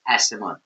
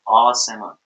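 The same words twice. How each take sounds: First: The first vowel is short and clipped. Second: The first vowel is long and drawn out. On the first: The speaker calls it wrong. "when you use one A, ... People would say Asaman, which is not the correct way" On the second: The speaker calls it right. "It's Asaman. That's why I would use a double A"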